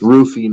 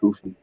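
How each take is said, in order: First: The name begins with an R sound. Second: The name begins with an H sound. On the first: This follows how the name is spelled. "it's Roofy" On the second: This is how the name is said in Brazil. "in Brazil, R's are pronounced like H's"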